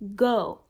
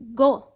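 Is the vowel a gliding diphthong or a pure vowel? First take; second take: diphthong; pure. First: The vowel is longer and glides into a diphthong. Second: The vowel is short and pure, without a glide. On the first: "Notice how much longer the American pronunciation is" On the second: "you wouldn't hear a native English speaker saying"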